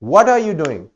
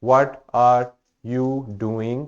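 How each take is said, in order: First: It is said with rising and falling question intonation. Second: It is said flatly, without question intonation. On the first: The speaker calls it right. "वो जो उसके अंदर intonation है, stress है, rising and falling, वो बताएगा कि this is a question" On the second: The speaker calls it wrong. "This is wrong, doesn't sound like a question"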